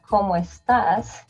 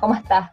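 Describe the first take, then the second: First: It is said in a standard accent, s pronounced. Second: It is said in a Caribbean coastal accent, s dropped.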